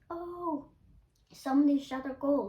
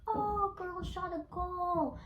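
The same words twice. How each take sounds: First: Raised pitch, loud acted cheer; mock cheer, high "oh" then louder; good-natured cheer, imitated. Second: High, drawn-out mock yell; mock scream, stretched and high-pitched; imitated screaming. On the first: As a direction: call out the goal approvingly, as an example. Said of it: "in a good way". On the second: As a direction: call it out high and slow, imitating jeering kids. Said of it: "they started screaming".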